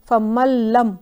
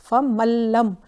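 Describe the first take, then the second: Both takes have the same delivery.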